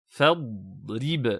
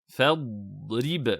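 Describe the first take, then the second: The two takes are said the same way.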